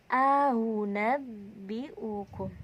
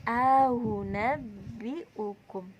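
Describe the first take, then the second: Both takes have the same delivery.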